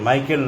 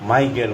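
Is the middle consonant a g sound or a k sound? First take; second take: k sound; g sound. First: The middle consonant is a voiceless k sound. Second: The middle consonant is a voiced g sound. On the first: The speaker calls it wrong. "মাইকেল নয়" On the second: The speaker calls it right.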